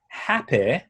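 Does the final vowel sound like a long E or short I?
short I. The final vowel is a short I sound. This is the target accent's way of saying it. The speaker calls it right. "So if you're happy"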